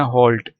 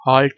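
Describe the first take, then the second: First: "halt" with a rounded O, like "holt". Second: "halt" with an open "aa" vowel; "halt" spoken as spelt, with an unrounded A. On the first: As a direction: say "halt" to rhyme with "bolt". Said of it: "इसको पढ़ना". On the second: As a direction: say "halt" as "haalt", the mistaken reading. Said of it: "नहीं पढ़ना". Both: Shown as a demonstration.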